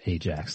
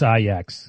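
First: It is said like the detergent brand. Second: It is not said like the detergent brand. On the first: The speaker calls it wrong. "Like that. ... dishwashing detergent" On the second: The speaker calls it right. "if you want to get it right"

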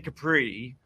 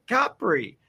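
First: The stress is on the second syllable. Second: The stress is on the first syllable. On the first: The speaker calls it wrong. "you don't say Capri" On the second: The speaker calls it right. "First syllable"

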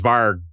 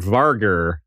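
First: The final R sound is dropped. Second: The final R sound is pronounced. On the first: The speaker calls it right. "So just varg" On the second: The speaker calls it wrong. "I don't think they say the R"

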